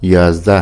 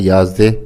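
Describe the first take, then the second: First: The last vowel is an open 'a' sound. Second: The last vowel is an 'e' sound. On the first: This is the standard form. "याजदह है लफ्ज़" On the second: Some regions say it this way. "बाज़ इलाकों में फ़र्क होता है"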